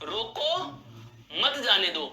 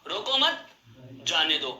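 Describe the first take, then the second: First: There is a pause after the first word. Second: There is a pause after the second word. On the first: "कि जो जा रहा है उसे रोक लीजिए" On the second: "रोको मत को एक साथ बोला, फिर जाने दो को एक साथ बोला, बीच में मैंने आराम लिया"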